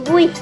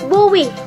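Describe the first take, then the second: First: Only a faint w glide is heard between vowels. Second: A clear w sound is heard between vowels. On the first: The speaker calls it right. "tapi buih" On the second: The speaker calls it wrong. "tidak tegas buih"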